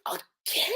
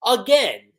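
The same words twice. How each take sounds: First: Breathy half-whisper, barely voiced; whispered disbelief. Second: Louder exasperated repeat; louder disbelief. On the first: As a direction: mutter the first again under your breath. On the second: Retold or imitated. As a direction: say it again, fed up. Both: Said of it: "She's like".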